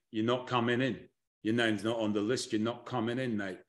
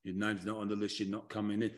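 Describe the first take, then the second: First: Low, soft Southern accent bouncer turning someone away; Southern accent, dropped low and quiet like a doorman at the rope. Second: Very low, soft Southern accent refusal; Southern accent, low and hushed, blocking the door; Southern accent doorman. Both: Shown as a demonstration. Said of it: "a Southern accent when I do that one".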